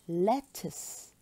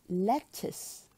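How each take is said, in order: Both takes have the same delivery.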